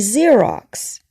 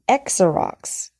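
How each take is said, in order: First: The word begins with a 'z' sound. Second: The word begins with a 'ks' sound. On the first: The speaker calls it right. "We say Xerox" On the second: The speaker calls it wrong. "if X is like a K S sound"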